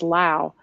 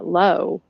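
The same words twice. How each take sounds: First: The vowel rhymes with 'cow'. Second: The vowel rhymes with 'go'. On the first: The speaker is from this local area. "someone from around here that pronounces" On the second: The speaker is from somewhere else. "which you would would hear elsewhere"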